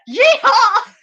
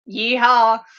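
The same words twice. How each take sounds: First: It is said with wild, genuine excitement. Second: It is said flatly and sarcastically.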